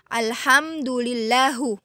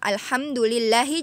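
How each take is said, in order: First: The word ends with a u vowel. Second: The word ends with an i vowel. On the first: The speaker calls it wrong. "diganti jadi alhamdulillahu. Nah, itu juga salah" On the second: The speaker calls it right. "harusnya alhamdulillahi"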